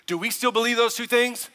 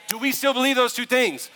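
First: "those" lifted as the key word in "Do we still believe those two things?"; first ask, weight on "those"; stress on those. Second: "still" punched hard in "Do we still believe those two things?"; second ask, pressing on "still"; stress on still. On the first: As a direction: lean into "those" while asking. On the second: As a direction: hammer "still" on the repeat. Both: Real, not acted. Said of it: "repeats the question".

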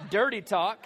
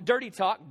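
First: Dirty lifted, tune rising on Dirty; dirty talk, rising. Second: Dirty said flat and firm, falling at the end; dirty talk, falling. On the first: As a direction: push Dirty up like a question. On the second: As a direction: drop the tune on dirty. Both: Shown as a demonstration.

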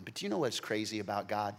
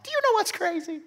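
First: Said in the usual way. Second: Much higher, eager "Do you know what's crazy?"; excited repeat. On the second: Acted. Preacher hypes the congregation before the twist. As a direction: spark them with the question.

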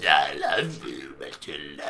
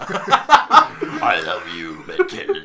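First: Much lower, very slow monster voice; sludgy honey monster. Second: Slow, gooey monster drawl; sludgy honey monster. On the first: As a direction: drag it out deep and gooey. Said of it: "Go again". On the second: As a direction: ooze each word like a sludge monster. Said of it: "what a disgusting voice". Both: Pretend.

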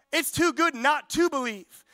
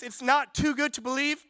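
First: "not to" stressed in "It's too good not to believe", falling to a firm end. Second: "not" lifted in "it's not too good to believe"; stress on not. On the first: Preacher declaring the truth to the church, stressing "not to". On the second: Preacher correcting the church's belief, stressing "not". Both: Shown as a demonstration. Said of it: "It's actually the polar opposite".

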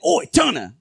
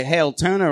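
First: A hint of a British oi; casual "Oi, Turner!" with a light laugh; mock Asgardian cheer. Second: Said in the usual way. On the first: God tells fans his new Asgardian greeting, lightly accented. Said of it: "now I've just been saying". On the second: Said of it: "we used to say".

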